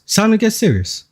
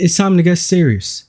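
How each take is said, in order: First: Higher, mock-solemn repeat; raised repeat. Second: Said in the usual way. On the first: Real, not acted. Streamer repeats his warning to viewers, higher. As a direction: say it again pitched up.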